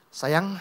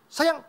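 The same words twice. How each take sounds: First: It is said in a gentle, asking tone. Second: It is said in a bossy, ordering tone. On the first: The speaker is asking for a favor. "Yang satu minta tolong" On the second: The speaker is giving an order. "yang satu nyuruh begitu"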